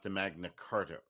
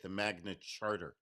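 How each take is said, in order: First: The second word starts with a 'k' sound. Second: The second word starts with a 'ch' sound. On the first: The speaker calls it wrong. "not the Magna Carta" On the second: The speaker calls it right. "is the correct way to say it"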